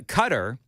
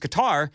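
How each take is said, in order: First: An everyday, anglicized pronunciation of the name. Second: A careful, foreign-sounding pronunciation of the name. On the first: Listeners complain it is pronounced incorrectly. "people say you're not saying it right" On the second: Listeners complain it sounds pretentious. "you're just trying to be fancy"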